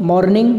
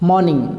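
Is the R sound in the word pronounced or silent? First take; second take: pronounced; silent. First: The R sound is pronounced in the word. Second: The R sound is silent in the word. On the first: The speaker calls it wrong. "इसको हम बोलते हैं मॉर्निंग" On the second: The speaker calls it right. "जबकि होता है मॉर्निंग"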